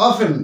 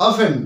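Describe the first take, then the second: The two takes are said the same way.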